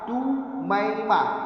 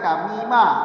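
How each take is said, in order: First: The name is said as Tumaimah, in diminutive form. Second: The name is said as Tamimah, without diminutive. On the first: It is the diminutive form of the name. "ditasghir ... di dhammah awal, dipatah setelahnya" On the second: It is the plain, non-diminutive form of the name. "Bacaan biasa tanpa ditasghir"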